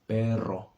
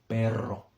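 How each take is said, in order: The two takes are said the same way.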